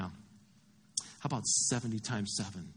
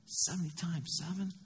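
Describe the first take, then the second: First: Slow, low, softer reply; calm correction. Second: Softer, questioning disbelief with rising end; incredulous echo. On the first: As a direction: correct him quietly, taking your time. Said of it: "And Jesus is like". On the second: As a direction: repeat it as if you can't believe it. Peter balks at Jesus' figure. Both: Acted.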